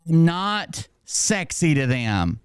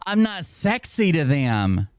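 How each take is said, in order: First: "not" hit hard and high, then slow; mock disbelief. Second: "sexy" drawn out slowly and raised in pitch; mock disbelief. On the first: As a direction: punch "not", then draw out the rest slowly. Repeats complaint, stressing the negation. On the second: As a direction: stretch "sexy" in amused disbelief. Mocking the complaint by repeating it. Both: Real, not acted.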